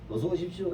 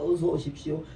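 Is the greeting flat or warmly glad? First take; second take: flat; warmly glad. First: It is said flatly, without real warmth. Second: It is said warmly, sounding truly glad.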